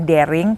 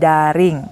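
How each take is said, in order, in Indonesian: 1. Bunyinya seperti kata bahasa Inggris daring. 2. Bunyinya seperti bahasa Indonesia da-ring. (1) "bukan daring" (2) "tapi daring"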